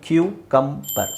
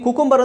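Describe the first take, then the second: First: The first syllable sounds like 'kyoo'. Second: The first syllable sounds like 'koo'. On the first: "ಸರಿಯಾದ pronunciation ಬಂದು ಕ್ಯೂ ಕಂಬರ್" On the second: "ಕುಕುಂಬರ್ ಅಂತ ಹೇಳಿದ್ರು ಪರವಾಗಿಲ್ಲ"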